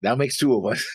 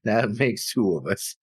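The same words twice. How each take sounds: First: Said in the usual way. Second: Slow repeat through a laugh. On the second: Real, not acted. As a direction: laugh while saying it again.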